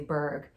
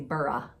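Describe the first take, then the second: First: It is said as one syllable ending in g. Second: It is said as two syllables ending in a vowel. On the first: This is how Americans tend to say it. "As Americans, we we want to say Berg" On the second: This is how the Scottish likely say it. "seems kind of Scottish, and I feel like they say Burra"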